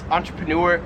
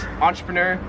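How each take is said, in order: First: It is pronounced the American way. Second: It is pronounced the Australian way. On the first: "I've always pronounced this" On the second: "In Australia, they pronounce this"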